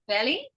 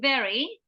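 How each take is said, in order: First: The word is said with an L sound. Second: The word is said with V and R sounds. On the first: The speaker calls it wrong. "you said belly" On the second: The speaker calls it right. "instead of saying very"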